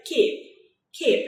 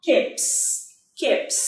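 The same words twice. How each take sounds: First: "keep" said short, ending on P; final P sound. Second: "keeps" with S added after the P; S ending sound. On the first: Teacher showing students the ending sound, "keep" ending on P. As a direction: say "keep" twice, separately, stopping on the P. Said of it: "Chúng ta có từ keep". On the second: Teacher showing students the added ending, "keeps" ending in S. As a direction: say "keeps" twice, separately, ending in an S. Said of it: "Chúng ta đọc là". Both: Shown as a demonstration.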